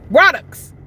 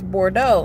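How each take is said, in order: First: The word ends with a sounded ks sound. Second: The word ends in a silent vowel sound. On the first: "the X especially is pronounced in that word" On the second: "the word is Bordeaux"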